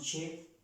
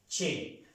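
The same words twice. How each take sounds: First: The vowel is said lightly, without force. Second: The vowel is said strongly, with force. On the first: The speaker calls it wrong. "no solamente decimos che" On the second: The speaker calls it right. "sino che con fuerza"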